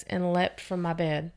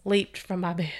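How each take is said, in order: First: "leapt" said as lept, short e; "leapt" with the short vowel of lept; first reading, "leapt" as lept; misread word. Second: "Leaped" said as leept, long ee; corrected reading, "Leaped" rhymes with keeped; corrected word. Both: Real, not acted.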